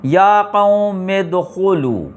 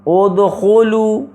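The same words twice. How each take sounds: First: Slow joined recitation of یا قوم ادخلوا with the hamza of ادخلوا dropped; slow Quranic recitation. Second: Drawn-out model reading of ادخلوا with the hamza said at the start; slow Quranic recitation. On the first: Teacher shows the hamza going silent mid-phrase: slow joined recitation. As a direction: read یا قوم ادخلوا slowly as yā qawmi-dkhulū, joining the words so the opening vowel of ادخلوا is not said. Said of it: "یا قوم ادخلوا پڑھ رہے ہیں".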